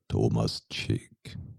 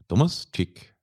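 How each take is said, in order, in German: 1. Der Name wird mit tieferer Stimme gesprochen. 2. Der Name wird mit normaler Stimme gesprochen. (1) "Kannst du ein bisschen tiefer" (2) "das ist nicht ganz die Tonfärbung"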